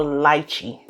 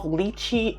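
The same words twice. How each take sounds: First: "lychee" said as LIE-chee; pronunciation variant. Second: "lychee" said as LEE-chee; pronunciation variant. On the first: Reviewer offering the other pronunciation, lychee as LIE-chee. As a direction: say "lychee" with first syllable rhyming with "lie". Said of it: "People say it differently". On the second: Reviewer unsure what the fruit is called, lychee as LEE-chee. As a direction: say "lychee" with a long ee first syllable. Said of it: "I don't know if it's called lychee or lychee". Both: Shown as a demonstration.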